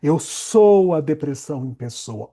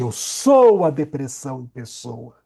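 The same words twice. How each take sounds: No difference in how they are said.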